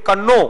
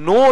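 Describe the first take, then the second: First: It begins with a sounded k. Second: It begins directly with n. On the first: The speaker calls it wrong. "એનું ઉચ્ચારણ થવું જોઈએ કન્નો" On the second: The speaker calls it right. "પણ ખરેખર એનું ઉચ્ચારણ નો થાય છે"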